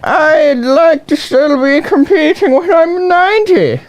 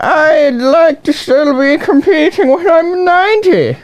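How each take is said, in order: First: It is said in an Irish old-lady accent. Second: It is said in an Irish old-lady accent.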